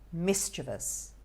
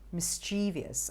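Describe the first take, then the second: First: The stress is on the first syllable. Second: The stress is not on the first syllable. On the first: The speaker calls it right. "emphasis on the first syllable there" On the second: The speaker calls it wrong. "Many people can call it mischievous"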